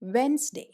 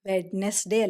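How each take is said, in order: First: The middle 'd' is silent, two syllables. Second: The middle 'd' is pronounced, three full syllables. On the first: The speaker calls it right. "അല്ല വെൻസ്ഡേ" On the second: The speaker calls it wrong. "വെഡ്നെസ്ഡേ അല്ല"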